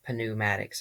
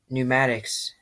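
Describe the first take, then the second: First: The word begins with a sounded P. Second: The word begins with a plain N sound. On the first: The speaker calls it wrong. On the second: The speaker calls it right.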